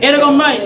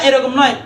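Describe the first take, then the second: No difference in how they are said.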